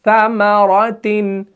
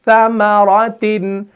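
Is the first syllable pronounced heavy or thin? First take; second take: thin; thin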